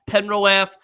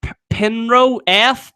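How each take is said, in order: First: Said in the usual way. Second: "Pinro F" sounded out slowly, pitched up; tentative pronunciation. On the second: Real, not acted. Streamer attempts a viewer's hard name, "Pinro F" slow and raised. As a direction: try "Pinro F" slowly, stumbling on the first P. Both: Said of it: "I can't even pronounce your game".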